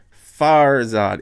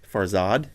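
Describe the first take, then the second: First: Farzad with a loud, punched first syllable; Farzad, first syllable hammered, Farsi-style; emphasis at the beginning. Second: Said in the usual way. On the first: Shown as a demonstration. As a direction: hit the start of Farzad hard. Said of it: "a lot of emphasis at the beginning". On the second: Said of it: "In English, we might say".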